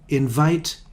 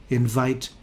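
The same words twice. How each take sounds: The two takes are said the same way.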